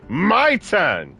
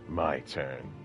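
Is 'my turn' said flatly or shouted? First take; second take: shouted; flat. First: It is shouted loudly with high energy. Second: It is said flatly with low energy. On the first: The speaker calls it right. "I want him to scream that shit out again. ... It's way better. He's all feisty about it" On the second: The speaker calls it wrong. "Instead of just doing that lame"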